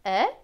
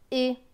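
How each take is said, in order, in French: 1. La voyelle est un e ouvert. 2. La voyelle est un e fermé. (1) "Selon certains, ce sera est" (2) "pour d'autres, ce sera et"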